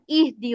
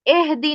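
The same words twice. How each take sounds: First: اہدی said with an i sound, ihdi; correct vowel. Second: اہدی said with an e sound, ehdi; wrong vowel. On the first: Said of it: "اہدی ہوتا ہے". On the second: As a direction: demonstrate the mistaken ehdi. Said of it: "اہدی نہیں ہوتا". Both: Shown as a demonstration.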